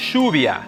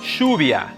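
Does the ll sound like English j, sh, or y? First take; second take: sh; sh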